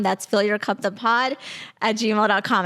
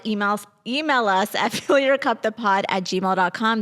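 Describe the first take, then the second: First: Said in the usual way. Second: Laughing. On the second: Real, not acted. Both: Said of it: "I can't stop laughing".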